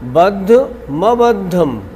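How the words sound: The break comes before the 'm' sound. The speaker calls it right. "नहीं ऐसे नहीं"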